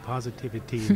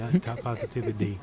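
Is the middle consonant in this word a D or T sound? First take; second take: T; D. First: The middle consonant sounds like a clear T. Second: The middle consonant sounds like a D. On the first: The speaker calls it right. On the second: The speaker calls it wrong.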